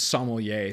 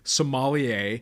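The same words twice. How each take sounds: First: The word does not sound like Somalia. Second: The word sounds like the country Somalia. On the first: This is how expert wine stewards say it. "they were the ones who were like, it's sommelier" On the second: This is a common American way to say it. "for years I had been saying sommelier, which sounds... I always equate it to the African country of Somalia"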